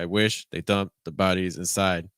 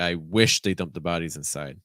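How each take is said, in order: First: It is broken into short, separate chunks. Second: It flows as one joined, smooth phrase. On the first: The speaker calls it wrong. "Right now, it's very short" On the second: The speaker calls it right. "if we joined the thought groups together, that would help smooth things out"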